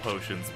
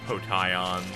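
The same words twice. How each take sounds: First: The word is said with its usual pronunciation. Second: The word is said with an odd pronunciation.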